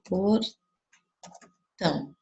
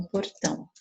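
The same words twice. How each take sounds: First: "portão" broken as por, long pause, tão; split into syllables. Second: Said in the usual way. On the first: Shown as a demonstration. Teacher giving pupils another example, "portão" split at a long pause after "por". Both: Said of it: "Olha aqui um outro".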